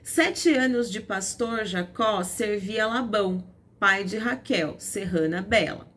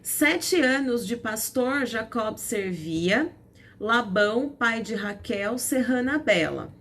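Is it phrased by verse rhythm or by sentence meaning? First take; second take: meaning; rhythm. First: It is phrased to follow the sentence meaning. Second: It is phrased to follow the verse rhythm.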